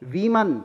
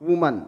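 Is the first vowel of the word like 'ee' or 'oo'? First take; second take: ee; oo. First: The first vowel sounds like 'ee'. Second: The first vowel sounds like 'oo'. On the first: The speaker calls it right. "Then it will be प्रोनंस्ड as वीमन" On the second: The speaker calls it wrong. "Not वुमन"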